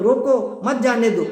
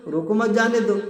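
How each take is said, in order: First: "روکو", a clear break, then "مت جانے دو"; pause after روکو. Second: "روکو مت جانے دو" run together without a pause; unbroken phrasing. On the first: Teacher showing how a listener misread the sentence, pause after روکو. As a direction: split it slowly and higher: "روکو... مت جانے دو". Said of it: "اب کسی نے یہ لے لیا اس کا مطلب". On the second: Teacher quoting an ambiguous sentence as first said, unbroken phrasing. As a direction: say "روکو مت جانے دو" higher, in one connected phrase. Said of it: "تو اس کا کہنے کا مطلب کیا تھا؟". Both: Shown as a demonstration.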